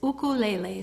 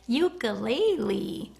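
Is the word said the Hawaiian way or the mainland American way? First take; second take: Hawaiian; mainland. First: Said the Hawaiian way, starting with 'oo'. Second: Said the mainland American way, starting with 'you'. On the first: This is how it is said where the instrument comes from. The speaker calls it right. "when you live in Hawaii... it is ukulele" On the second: This is how people outside Hawaii say it. The speaker calls it wrong. "y'all call it a ukulele, which is really weird to me"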